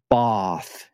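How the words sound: The word is said in a posh southern English accent. "a very posh English accent"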